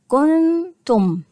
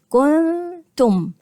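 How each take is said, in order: No difference in how they are said.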